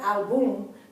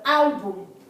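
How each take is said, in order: First: The stress is on the last syllable. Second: The stress is on the first syllable. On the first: The speaker calls it wrong. "not album ... and not on the last syllable, which would have been the album" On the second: The speaker calls it right. "but album ... the accent is on the first syllable"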